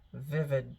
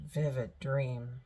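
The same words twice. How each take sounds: First: Said in the usual way. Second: "vivid" repeated slower and drawn out; "vivid dream" stretched for emphasis; stress on vivid. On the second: Shown as a demonstration. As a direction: lean into "vivid" the second time, slowly.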